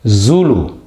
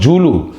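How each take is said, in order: First: The first consonant sounds like z. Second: The first consonant sounds like j. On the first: The speaker calls it right. "It's Zulu. It's zebra" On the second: The speaker calls it wrong. "It's not Zulu"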